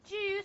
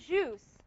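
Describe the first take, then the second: First: It begins with a 'j' sound, stop then hiss. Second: It begins with a smooth 'zh' sound. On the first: The speaker calls it right. "You have to say juice" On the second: The speaker calls it wrong. "You're not pronouncing English properly"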